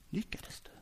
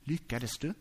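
First: "Lyckades du?" breathed with no voice; whisper. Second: Quiet question. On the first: Jesus wrongly imagined asking Petrus, whispered. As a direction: let it fade into a whisper. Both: Shown as a demonstration. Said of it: "Är det så här".

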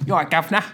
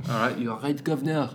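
First: Higher-pitched cheeky British guv'nor greeting; playful put-on British accent; mock British accent. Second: British greeting in a mock French accent; badly faked French accent. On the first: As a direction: ham up a British "governor". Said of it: "likes our British accents". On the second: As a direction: put on a silly French accent. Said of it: "no sense in a French accent".

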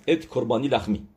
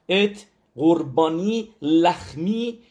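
First: Said in the usual way. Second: ات drawn out slow, higher and louder; solemn slow recital with ات stressed; slow emphatic recital. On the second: Shown as a demonstration. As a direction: spell out ات قربانی لخمی slowly, leaning hard on ات.

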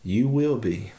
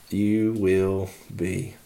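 First: Said in the usual way. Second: "You will be." drawn out very slowly and lower; ominous slow echo. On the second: Retold or imitated. Yoda warns Luke he will be afraid, slow and grave. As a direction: let the warning sink in, slow and heavy. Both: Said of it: "And Yoda says".

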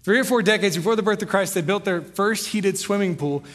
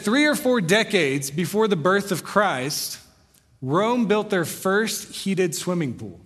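First: Fast, casual repeat of the same line; quick retelling. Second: Slow, weighty reading of the book's opening; slow quoted reading. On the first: Shown as a demonstration. Pastor restating the quote for the congregation in a quick, casual way. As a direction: rattle it off, quick and conversational. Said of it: "I don't know how they did it". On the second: Retold or imitated. Pastor quoting the historian's book to the congregation, slow and deliberate. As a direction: read each word slowly as if quoting the book. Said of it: "He said".

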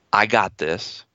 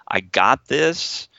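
First: I got this, said low and unsure, a mild scared tone; whisper-thin hope: I got this, not believed; feared voice. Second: I got this, slow and steady, sure of itself; calm in-charge inner voice: I got this; executive voice. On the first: Therapist showing the frightened voice saying I got this, mildly uneasy. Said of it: "my feared, feared voice is gonna come up". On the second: Therapist showing the confident inner voice saying I got this, slow and steady. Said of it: "I've gotta have an executive voice". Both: Shown as a demonstration.

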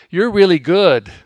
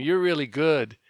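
First: Loud, falling "You're really good"; big brother's praise. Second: Said in the usual way. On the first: Retold or imitated. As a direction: boom it out like an older brother. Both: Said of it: "That's what he'd say to me".

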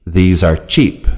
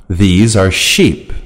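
First: Cheap begun with a short CH, like T plus SH; CH sound. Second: Sheep begun with a long, smooth SH; SH sound. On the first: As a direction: say cheap with a stopped CH. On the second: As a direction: say sheep with SH, no T before it. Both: Shown as a demonstration. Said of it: "Sound exercises".

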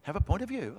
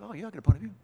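First: Said in the usual way. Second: Offhand, breezy shrug of a voice, a bit higher; mock casual believer. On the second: Preacher mocking a lukewarm believer, breezy and offhand. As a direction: toss it off like a lukewarm churchgoer. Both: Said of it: "it can sound like that".

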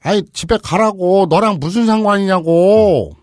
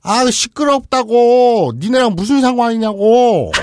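First: Slow loud high yelling; angry yell. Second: Very slow, loud high yelling; angry yell. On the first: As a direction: drag it out, furious. (화난 아버지의 느린 고함) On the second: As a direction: stretch every word in fury. (아주 느린 분노의 고함) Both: Acted. 아버지 역 외침.

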